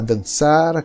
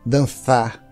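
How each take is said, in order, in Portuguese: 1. A consoante do meio é um s simples. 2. A consoante do meio é um th interdental. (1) "Se for um hispano-falante das Américas" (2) "se é uma pessoa da Espanha... interdental"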